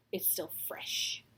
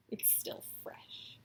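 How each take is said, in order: First: Hushed, breathy repeat; whispered aside. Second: Even fainter unvoiced whisper. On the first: Vlogger whispering about last night, hushed. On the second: Vlogger whispering about last night, nearly silent. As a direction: barely breathe the words. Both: Real, not acted.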